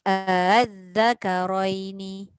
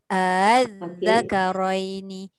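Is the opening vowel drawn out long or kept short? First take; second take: short; short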